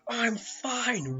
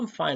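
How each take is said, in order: First: It is said in an angry way. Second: It is said in a calm, relaxed way.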